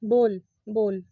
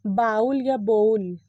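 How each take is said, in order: First: बोल said as "bōl", one long o, slowly and lower; correct pronunciation. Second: बाउल said "ba-ool" with an "ow" vowel, slowly; wrong pronunciation. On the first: Teacher models the right बोल for students. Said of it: "सही pronunciation है ना वो है बोल". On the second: Teacher shows students the common बाउल mistake. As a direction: demo the wrong बाउल slowly, like "ball-owl". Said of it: "गलत, इसका pronunciation करते हैं". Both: Shown as a demonstration.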